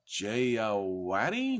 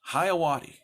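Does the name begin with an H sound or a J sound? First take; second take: J sound; H sound. First: The name begins with a J sound. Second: The name begins with an H sound. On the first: The speaker calls it wrong. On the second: The speaker calls it right. "The J has an H sound"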